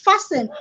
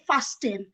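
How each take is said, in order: First: The t sound is silent. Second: The t sound is pronounced. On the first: The speaker calls it right. "the T is actually is, is silent" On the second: The speaker calls it wrong. "In Nigeria, we would say fasting"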